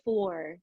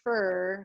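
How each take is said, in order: First: The vowel is a rounded 'or' sound. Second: The vowel is a central 'ur' sound. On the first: The speaker calls it right. "Make sure that you're differentiating" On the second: The speaker calls it wrong. "So don't say fur. Maybe that's just me in my Arkansas background"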